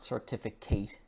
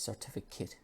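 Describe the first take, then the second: First: The last syllable has a full 'ay' vowel. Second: The last syllable has a relaxed schwa vowel. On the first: The speaker calls it wrong. "It's not certificate, because it looks like eight" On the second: The speaker calls it right. "we use the schwa sound, just the I"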